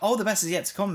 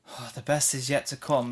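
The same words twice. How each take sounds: First: It is said in an upbeat, cheerful way. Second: It is said in a flat, gloomy way. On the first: Good things really are ahead. "It doesn't feel like" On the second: Nothing good is really expected. "It feels like ... it doesn't feel positive"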